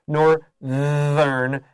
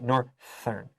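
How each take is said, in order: First: The th sound is voiced. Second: The th sound is unvoiced. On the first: The speaker calls it right. "you have to voice the th or it's inaccurate" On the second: The speaker calls it wrong. "No foreigner would say northern"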